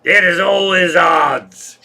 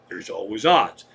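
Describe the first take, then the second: First: Put-on loud, slow, drawn-out drunken proclamation; drunken guy. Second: Said in the usual way. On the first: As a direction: bellow it like a drunk at the bar. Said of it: "the drunken guy said".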